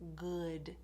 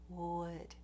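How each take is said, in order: First: The word starts with a g sound. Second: The word starts with a rounded w sound. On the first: The speaker calls it wrong. "put a g in there instead of a W sound" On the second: The speaker calls it right. "make sure that you're doing a clear w"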